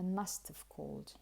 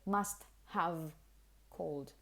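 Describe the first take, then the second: First: The words are run together as one reduced unit. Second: The words are said fully as three separate words. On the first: The speaker calls it right. "it's just all together, it's just one hit" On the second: The speaker calls it wrong. "She doesn't actually say must have called, like three words"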